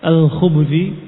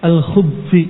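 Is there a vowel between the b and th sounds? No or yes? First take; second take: yes; no. First: A u vowel follows the b sound. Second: No vowel follows the b sound. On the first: "dengan dhammah al-ba" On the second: "dengan sukun"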